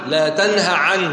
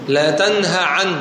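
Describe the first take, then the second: Both takes have the same delivery.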